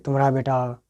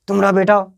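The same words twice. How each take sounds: First: Said in the usual way. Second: Louder, rising on बेटा in a scolding father's complaint; angry complaint. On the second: Retold or imitated. Sen sahab complaining to Girdhar about his son, scolding. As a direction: tumhara BETA, hit बेटा hard and loud. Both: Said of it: "Sen साहब शिकायत करते हैं".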